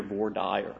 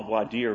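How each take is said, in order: First: Voir dire said as "vor dyer"; Texas pronunciation. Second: Voir dire said as "vwah deer"; Texas pronunciation. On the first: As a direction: say voir dire the Texan way, rhyming dire with fire. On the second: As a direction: say voir dire French-style, ending like deer. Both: Shown as a demonstration. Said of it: "all kinds of pronunciations".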